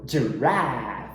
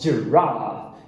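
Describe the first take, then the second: First: The second vowel is a flat front a. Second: The second vowel is a long open ah. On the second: "Britânico"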